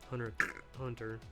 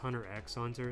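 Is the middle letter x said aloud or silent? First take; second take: silent; said aloud. First: The letter x is left silent between words. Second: The letter x is said aloud between words. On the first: The speaker calls it right. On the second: The speaker calls it wrong.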